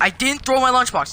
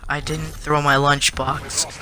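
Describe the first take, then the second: First: Higher-pitched retold protest; mock raised voice. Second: Slow, deliberate retold protest; lowered voice. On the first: Kid protesting innocence to the principal, mock raised voice. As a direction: insist with the pitch raised, mildly. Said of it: "don't raise your voice at me". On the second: Kid answering after being told off by the principal, slow and toned down. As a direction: say it slowly, reining the voice in. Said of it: "Don't, don't raise your voice".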